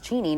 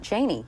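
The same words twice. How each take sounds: First: The name is said the Wyoming way. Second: The name is said the usual Washington way. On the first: This is how the family itself says the name. The speaker calls it right. "it's Cheney" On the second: This is how people in the capital had been saying it. The speaker calls it wrong. "not Cheney"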